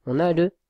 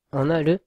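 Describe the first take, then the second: No difference in how they are said.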